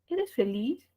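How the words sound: The pitch rises at the end. It asks a yes-or-no question. "Ese tono final ascendente, que ya sabemos que tiene este"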